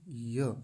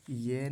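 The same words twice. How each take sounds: First: 'य' as open 'ya'; short a vowel, not e, on 'य'; clear य. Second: 'ये' with an e vowel, ye; mistaken vowel. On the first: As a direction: sound 'य' distinctly as ya. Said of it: "य का उच्चारण स्पष्ट". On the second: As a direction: close the vowel to 'e' in 'ये'. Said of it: "ये नहीं य". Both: Shown as a demonstration.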